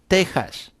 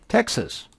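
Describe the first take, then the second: First: The x is said as a breathy h sound. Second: The x is said as a ks sound. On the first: "in Spanish, we always say" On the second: "you can imagine"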